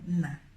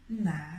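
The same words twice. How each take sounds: First: It is said plainly, with no warmth. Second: It is said warmly, with extra emphasis. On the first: It simply means father. "the word alone, na, is just father. There is nothing sweet" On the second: It is a praise or romantic word for a man. "you put some emphasis in the na ... just like that"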